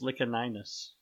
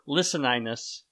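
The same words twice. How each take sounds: First: The C is pronounced hard, like a K. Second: The C is pronounced soft, like an S. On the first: "I am a hard proponent of the hard C" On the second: "if you want to pronounce it with the soft C"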